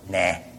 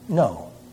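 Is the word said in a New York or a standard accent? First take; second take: New York; standard. First: It is said in a New York accent. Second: It is said in a standard accent. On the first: "New York" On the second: "or otherwise"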